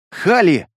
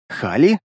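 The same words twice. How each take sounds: First: ХАЛИ exclaimed, falling at the end; exclaimed call. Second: ХАЛИ with a rising, questioning end; questioning call. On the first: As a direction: call "Хали" firmly, dropping the pitch at the end. («Хали» восклицанием, с падением тона) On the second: («Хали» вопросительно, с подъёмом в конце) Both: A narrator's reading. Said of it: "Я мысленно закричал".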